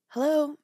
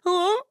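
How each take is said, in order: First: It is said in a polite service voice. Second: It is said in an upset, anxious voice.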